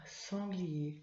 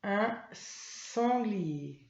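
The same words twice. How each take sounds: First: Said in the usual way. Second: Un sanglier drawn out very slowly to show the final é; stretched word. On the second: Shown as a demonstration. Teacher drawing out sanglier to show the é sound. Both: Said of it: "donc j'entends et".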